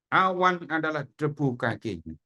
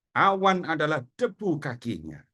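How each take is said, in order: The two takes are said the same way.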